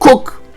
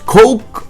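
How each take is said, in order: First: The name is said to rhyme with English cook. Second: The name is said to rhyme with English coke. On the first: "or Cook" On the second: "not Coke"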